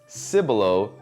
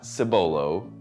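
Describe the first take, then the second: First: The name is said the local Texan way. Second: The name is said a non-local way. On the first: The speaker calls it right. "It's Cibolo" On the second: The speaker calls it wrong. "not Cibolo"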